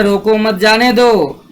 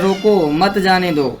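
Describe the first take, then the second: First: Said in the usual way. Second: रोको set apart, then मत जाने दो; short pause separating रोको from मत; comma pause after रोको. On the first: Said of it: "पहले में कह रहा है". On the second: Shown as a demonstration. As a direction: break briefly after रोको, then run मत जाने दो together. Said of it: "दूसरे में कह रहा है".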